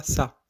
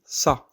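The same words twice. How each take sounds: First: Ça with a thin, light s; light sin-like s. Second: Ça with a dark, emphatic s; heavy sad-like s. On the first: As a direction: say ça like Arabic seen. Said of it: "on dit pas ça". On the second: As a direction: say ça like Arabic sad. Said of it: "on dit ça". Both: Shown as a demonstration.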